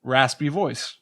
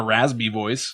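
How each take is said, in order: First: Said in the usual way. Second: Raspy pronounced "razby", with a buzzed Z. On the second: Shown as a demonstration. Co-host testing the rule, raspy said wrongly as "razby". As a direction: turn the S of raspy into a Z. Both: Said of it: "you say it like a Z".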